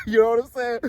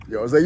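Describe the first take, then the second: First: Higher, with a laugh; laughing re-take. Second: Said in the usual way. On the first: Shown as a demonstration. Re-adding his catchphrase to viewers, laughing. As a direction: toss the catchphrase back with a chuckle. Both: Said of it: "You gotta add that".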